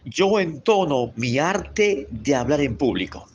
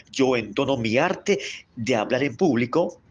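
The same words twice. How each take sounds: First: Slow, clear declaration; slow affirmation. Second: Said in the usual way. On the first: Shown as a demonstration. Teacher leading students in a slow spoken affirmation. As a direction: say it slowly for them to repeat. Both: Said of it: "repita conmigo".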